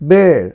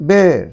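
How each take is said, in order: First: The vowel sounds like the one in 'bare'. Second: The same.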